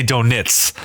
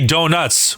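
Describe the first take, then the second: First: "donits" ending in "nits"; reduced second vowel. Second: "donuts" with a clear "nuts"; full second vowel. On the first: Showing how East Coasters say it, "donits" with short i. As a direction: say "donits" slowly as DOH-nits. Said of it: "We say donits". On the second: Showing what East Coasters don't say, "donuts" ending in clear "nuts". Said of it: "we don't say donuts". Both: Shown as a demonstration.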